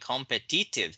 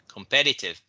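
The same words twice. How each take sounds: First: The stress is on the last syllable. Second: The stress is on the second syllable. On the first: The speaker calls it wrong. "not on the last one" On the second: The speaker calls it right. "the stress is on the second syllable"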